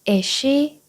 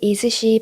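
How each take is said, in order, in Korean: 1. s 소리는 한 번만 발음하고, 앞뒤를 이어서 연결해요. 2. s 소리는 "is"와 "she" 두 단어 모두에 있어요. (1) "s를 한 번만 발음해 주시면 돼요. is she, is she 이렇게요" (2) "is she 발음하면 너무 어려워요"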